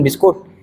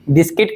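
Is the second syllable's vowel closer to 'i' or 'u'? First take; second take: u; i. First: The second syllable is said with a 'u' vowel. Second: The second syllable is said with an 'i' vowel. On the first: This is the plain local way of saying it. "बिस्किट नहीं कह रहे हम छत्तीसगढ़िया" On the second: The speaker is showing off. "बिस्किट कहत कई मन hero बनाते"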